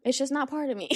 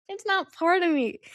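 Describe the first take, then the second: First: Said in the usual way. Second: High put-on silly voice, a playful repeat; mock high voice. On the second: Shown as a demonstration. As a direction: repeat it again in a high, goofy tone.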